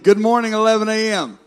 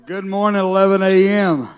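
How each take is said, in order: First: It is said strongly, with more energy. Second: It is said weakly, with little energy.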